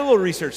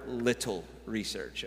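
First: Said in the usual way. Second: "little" set apart, slowly and deliberately; stress on little. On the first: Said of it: "I'm gonna emphasize the word little". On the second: Shown as a demonstration. Preacher downplaying his research to the congregation, emphasis on "little". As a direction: lean on "little", in a lowered voice. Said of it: "I'm gonna emphasize the word little research".

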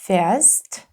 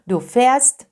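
First: Fährst said with the open e sound; fährst with ä spoken as e; fährst with umlaut. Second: Fährst with a long open e sound. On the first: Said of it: "a zmieniło się na a umlaut". (fährst z a umlaut) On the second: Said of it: "A umlaut wymawiamy e, długie e". (fährst z długim e) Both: Shown as a demonstration.

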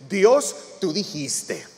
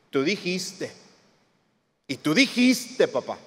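First: Said in the usual way. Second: Lightly imitated child reminding a parent; a hint of a kid holding dad to it; children pleading. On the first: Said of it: "le decimos". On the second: Child to dad about a promise, lightly mimicked insistence. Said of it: "Como cuando los niños nos decían así".

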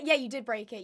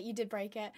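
First: Said in the usual way. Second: Softer, lower mock accusation; quieter repeat. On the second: Real, not acted. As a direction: mutter it again as a playful dig. Repeats the tease under her breath.

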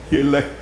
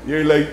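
The two takes are said the same way.

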